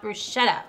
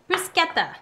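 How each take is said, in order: First: The word is said with non-Italian pronunciation. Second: The word is said with Italian pronunciation. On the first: The speaker calls it wrong. "not bruschetta" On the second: The speaker calls it right. "would be the Italian pronunciation"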